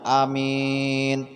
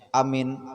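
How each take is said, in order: First: The first vowel is short, the second long. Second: Both vowels are short. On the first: It means trustworthy. "Pendek awalnya, akhirnya panjang" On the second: It means a sense of safety. "Kalau dipendekkan awalnya, dipendekkan akhirnya"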